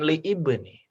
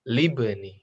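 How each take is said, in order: First: The initial vowel of ibni is pronounced separately. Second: The initial vowel of ibni is dropped and joined. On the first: The speaker calls it wrong. "Bacanya bukan li ibni" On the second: The speaker calls it right. "tapi libni"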